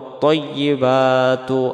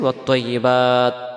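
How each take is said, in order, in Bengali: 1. শব্দটি স্বরধ্বনি দিয়ে শেষ হয়, টান দিয়ে চলতে থাকে। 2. শব্দটি ব্যঞ্জন দিয়ে শেষ হয়, তারপর থেমে যায়। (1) "আর যদি একবারে পড়তে চাই" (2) "যদি আমরা এখানে দমটা ছেড়ে দিই"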